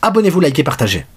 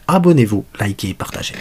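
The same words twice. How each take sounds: First: The phrase is said at a normal, quicker pace. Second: The phrase is said slowly and deliberately.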